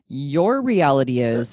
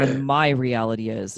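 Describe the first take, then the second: First: "your" stressed, slowed down. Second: "my" stressed, the rest lower. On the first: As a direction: land hard on "your", not "reality". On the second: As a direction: lean on "my" to set it against "your". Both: Shown as a demonstration. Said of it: "stress contrast your vs my".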